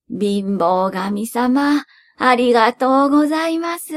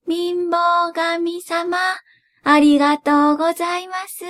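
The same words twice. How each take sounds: First: Put-on old man voice. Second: Put-on old woman voice. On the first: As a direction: thank him as the old man. Grandfather thanks poverty god. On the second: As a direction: thank him as the old woman. Grandmother thanks poverty god. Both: A narrator's reading.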